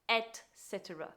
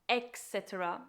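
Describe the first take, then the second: First: The phrase begins with an 'et' sound. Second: The phrase begins with an 'ex' sound. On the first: The speaker calls it right. "when it should be et cetera" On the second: The speaker calls it wrong. "commonly mispronounced by adding an X"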